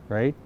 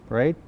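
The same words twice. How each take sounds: The two takes are said the same way.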